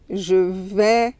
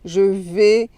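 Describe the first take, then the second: First: The final vowel is open, like 'è'. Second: The final vowel is closed, like 'é'. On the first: "prononcer est" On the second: "prononcer fermé et"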